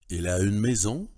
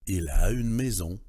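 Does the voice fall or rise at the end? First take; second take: rises; falls. First: The voice rises at the end. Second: The voice falls at the end. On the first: It is a question. "l'intonation interrogative" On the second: It is a statement. "l'intonation de la proposition énonciative"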